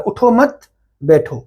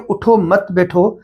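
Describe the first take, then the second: First: "اٹھو مت", a clear stop, then "بیٹھو"; pause after مت. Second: "اٹھو مت بیٹھو" run together without a stop; no pause, run on. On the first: Teacher showing the required stop, "اٹھو مت" then pause before "بیٹھو". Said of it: "اور بیٹھنے کا حکم ہے". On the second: Teacher showing what happens if you continue, "اٹھو مت بیٹھو" run on without pause. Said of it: "اگر اس کو کنٹینیو آپ کریں گے". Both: Shown as a demonstration.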